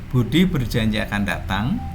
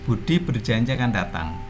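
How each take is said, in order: First: The ending sounds unfinished, as if more follows. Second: The ending sounds finished, like a complete statement. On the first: It is only a clause, not yet a sentence. "maka bunyi intonasinya" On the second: It is a complete sentence. "karena sudah menjadi kalimat"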